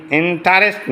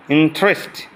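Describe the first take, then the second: First: ইন্টারেস্ট in three beats, "in-ta-rest"; wrong pronunciation. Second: ইন্টারেস্ট squeezed to "in-trest"; correct pronunciation. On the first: Teacher shows students what to avoid, wrong pronunciation. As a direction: sound the "ta" in ইন্টারেস্ট. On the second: Teacher models the word for students, correct pronunciation. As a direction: say ইন্টারেস্ট in two beats. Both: Shown as a demonstration. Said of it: "ইন্টারেস্ট না".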